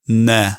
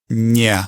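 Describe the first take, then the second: First: The n is hard, without tongue raising. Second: The n is soft, with the tongue raised. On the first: "if it was not palatalized, it would sound like ne" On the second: "that sounded very palatalized to me. ... the tongue is resting right on the roof of my mouth"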